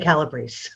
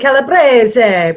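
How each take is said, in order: First: It is pronounced the American way. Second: It is pronounced the Italian way. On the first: This is how the family says it in America. "but we're in America. So apparently... we say calabrese" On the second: This is how it is said in Italy. "If we were in Italy, we would say calabrese"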